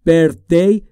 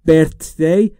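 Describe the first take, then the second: The two takes are said the same way.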